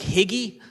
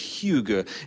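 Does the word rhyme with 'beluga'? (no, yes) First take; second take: no; yes. First: The word does not rhyme with beluga. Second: The word rhymes with beluga. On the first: The speaker calls it wrong. "It kind of looks like higgy, but it's not higgy" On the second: The speaker calls it right. "It rhymes with beluga"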